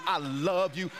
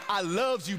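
First: Said in the usual way. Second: "I loves you" with the added s, said a bit higher; affectionate folksy "I loves you"; playful dialect. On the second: Retold or imitated. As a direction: lean into "loves" with a teasing lilt. Playful variant of I love you.

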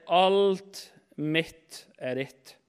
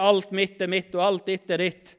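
First: Very slow, a pause after each part; slow, weighty correction; emphatic true version. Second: Brisk, evenly run-together misquote; rejected version. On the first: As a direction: stretch out "Alt", then set down "mitt" and "er ditt" separately. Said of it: "Men han sier". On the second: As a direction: rattle off the wrong version without pauses. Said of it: "Han sier ikke det". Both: Retold or imitated.

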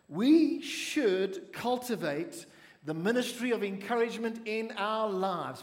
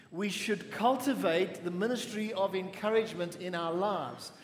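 First: Slow, weighty line leading the church; slow emphatic statement. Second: Said in the usual way. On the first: Shown as a demonstration. Pastor slowly sets out the line for the congregation to repeat. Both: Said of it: "Please say that with me".

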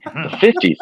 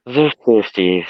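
First: Dreamy distant voice. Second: Slow, wistful and far away; dreamy distant voice. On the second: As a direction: drift off lost in memory. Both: Acted. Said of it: "said Marty in a dreamy voice".

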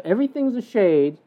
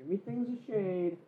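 First: Said in the usual way. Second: Barely audible, very soft repeat; tiny hushed voice; hushed echo. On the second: Acted. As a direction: echo it faintly, as if far away. Same phrase echoed very softly.

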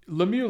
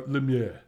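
First: Said in the usual way. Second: Lemieux said French-style, lem-YUH, final x silent; corrected pronunciation. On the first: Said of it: "Or Lemieux". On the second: Shown as a demonstration. Host corrects himself on the boxer's name, Lemieux in French pronunciation. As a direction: say Lemieux the French way, ending in a short rounded "yuh". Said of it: "Sorry, sorry".

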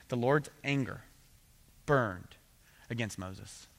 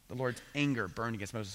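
First: Slow, with long pauses between each phrase; dramatic pauses. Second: Said in the usual way. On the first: Shown as a demonstration. Preacher reads the verse aloud with heavy pauses. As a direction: let each phrase land with a pause before the next. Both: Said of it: "he says this".

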